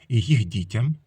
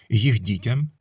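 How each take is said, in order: No difference in how they are said.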